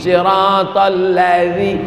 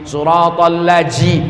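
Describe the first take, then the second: First: The last syllable has a th sound. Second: The last syllable has a j sound. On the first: The speaker calls it right. "pakai za. Letakkan lidah di ujung gigi" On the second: The speaker calls it wrong. "bukan ji"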